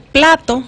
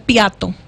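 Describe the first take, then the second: First: The word is said with an L after the p. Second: The L after the p becomes an I sound. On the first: The speaker calls it right. "en vez de decir plato" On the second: The speaker calls it wrong. "dice piato"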